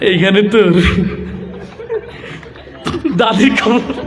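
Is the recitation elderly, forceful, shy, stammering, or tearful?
shy. It is recited timidly and hesitantly. The reciter is embarrassed to speak before people. "লাজুক একটা যুবক আসছে, তার আবৃত্তির ঢং ছিল এরকম"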